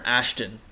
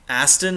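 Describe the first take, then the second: First: The middle consonant is an 'sh' sound. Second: The middle consonant is a plain 's' sound. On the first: The speaker calls it right. "but it's Ashton" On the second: The speaker calls it wrong. "I like Aston"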